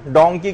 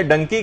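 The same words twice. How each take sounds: First: ڈونکی with a long open vowel in the first syllable; correct pronunciation. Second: ڈنکی with a short first vowel, like "dunky"; mispronunciation. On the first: Teacher giving an example to the class, correct pronunciation of ڈونکی. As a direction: say ڈونکی the proper English way. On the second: Teacher showing what children laugh at, ڈنکی with shortened vowel. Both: Shown as a demonstration. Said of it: "تلفظ صحیح نہیں ہے".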